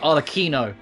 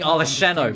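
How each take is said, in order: First: The ch is said as a k sound. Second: The ch is said like English ch. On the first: The speaker calls it right. "That's how you pronounce it" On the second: The speaker calls it wrong. "I've been saying Arlecchino because there's a C H"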